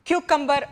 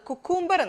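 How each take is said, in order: First: The word begins with a stressed 'kyoo' sound. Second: The word begins with a plain 'koo' sound. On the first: The speaker calls it right. "ആദ്യത്തെ ആ സിക്കാണ് stress കൊടുത്തിട്ട്" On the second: The speaker calls it wrong. "കുക്കൂംബർ എന്നല്ല"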